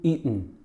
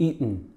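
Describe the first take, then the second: First: The T is replaced by a glottal stop. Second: The T is replaced by a glottal stop.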